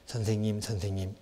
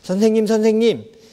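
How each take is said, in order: First: It is said in a plain, ordinary voice. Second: It is said with a slightly raised voice.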